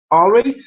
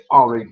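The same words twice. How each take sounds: First: "All right" thrown up high and loud at the end; rising greeting. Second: "All right" at usual pitch, falling away at the end; falling reply. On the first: Greeting someone walking along down the street, "All right" rising sharply. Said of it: "and you'll go". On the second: Passer-by saying it back, "All right" with a falling end. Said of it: "and they'll say". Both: Shown as a demonstration.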